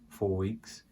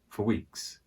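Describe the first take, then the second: First: The word 'for' is said fully and strongly. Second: The word 'for' is weak and quick. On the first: "you can say it like that, but it would be for emphasis" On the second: "not very strong for"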